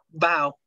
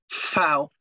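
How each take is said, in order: First: The word begins with a B sound. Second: The word begins with an F sound. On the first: The speaker calls it wrong. "no se lee Bao" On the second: The speaker calls it right. "se lee Fao"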